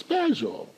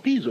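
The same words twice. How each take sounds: First: Peso with an open e; first vowel of peso said as eh; corrected "pezo". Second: Peso with a long ee; first vowel of peso turned to ee; wrong "peezo". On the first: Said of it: "it's peso". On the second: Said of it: "Joe, it's not peso". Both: Shown as a demonstration.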